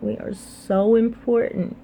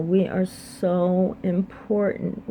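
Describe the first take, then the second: First: "important" lifted higher and punched; stress on important. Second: Slow emphatic. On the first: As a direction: raise the pitch and hit "important". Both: Real, not acted. Repeating her message with weight.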